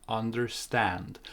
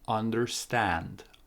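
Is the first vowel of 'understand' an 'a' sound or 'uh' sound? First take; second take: uh sound; uh sound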